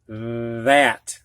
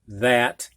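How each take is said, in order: First: The voiced TH is buzzed long and strongly. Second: The voiced TH is short and light. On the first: "I emphasized the voice T H" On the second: "you'd normally say it"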